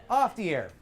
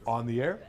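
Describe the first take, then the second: First: Pinch it like a duck; comic nasal everyday voice; off-air duck voice. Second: Low open-throated DJ sound; deep radio announcer tone; on-air voice. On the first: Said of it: "Off the air sounds like a duck". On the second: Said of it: "unless they're on the air". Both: Shown as a demonstration.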